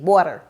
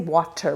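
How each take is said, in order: First: The middle consonant sounds like a soft D. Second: The middle consonant is a clear T. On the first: This is how North Americans say it. "We do it like a, like a D" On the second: This is how British speakers say it. "we don't say water. We don't, we don't do that with our T"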